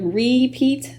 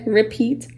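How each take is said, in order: First: The first vowel is a full vowel. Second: The first vowel is a reduced schwa. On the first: "the way the syllable division breakup may suggest" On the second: "The R I makes the schwa sound more re"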